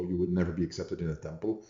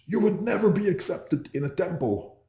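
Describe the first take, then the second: First: Said in the usual way. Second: High-pitched shrieked quote; an upset guy screaming at the teacher as he leaves; retold scream. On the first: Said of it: "the official motto". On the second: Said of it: "and then screams".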